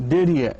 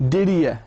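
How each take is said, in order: Both takes have the same delivery.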